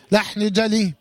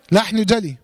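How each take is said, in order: Both takes have the same delivery.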